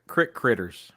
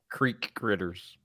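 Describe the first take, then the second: First: The first word has a short 'i' vowel. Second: The first word has a long 'ee' vowel. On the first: It is the regional Southern way of saying it. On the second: It is the general way of saying it.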